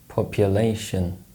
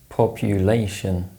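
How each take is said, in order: First: The unstressed vowel is reduced to a schwa. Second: The unstressed vowel is a short full oo sound.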